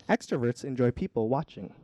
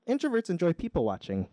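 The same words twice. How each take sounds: First: "people watching" as two separate words, "watching" set apart; split phrase. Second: "people watching" run together as one compound, pitched higher; compound stress. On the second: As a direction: say "people watching" as a hobby, one hyphenated word. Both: Shown as a demonstration. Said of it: "It's a hyphen joke".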